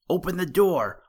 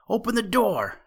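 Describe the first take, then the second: First: Loud, high shout at a shut door; a little rabbit yelling to be let in. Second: A much higher, frantic shout; the rabbit yelling louder, desperate; shouted even harder. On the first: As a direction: pound on the door and yell. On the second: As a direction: yell it again, desperate now. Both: A narrator's reading. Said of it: "shouted the little rabbit".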